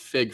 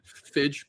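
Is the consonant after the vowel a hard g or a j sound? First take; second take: hard g; j sound. First: The vowel is followed by a hard g sound. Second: The vowel is followed by a j sound. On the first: The name comes from figure. "it's fig for for figure" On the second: The name comes from physical and digital. "Fidge pin makes sense"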